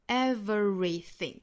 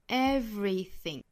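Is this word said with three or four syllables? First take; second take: four; three. First: The word is said with four syllables. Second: The word is said with three syllables. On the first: "被读成四个音节的情况" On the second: "三个音节"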